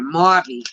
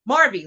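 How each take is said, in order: First: It is said in a New York accent. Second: It is said in the speaker's plain accent.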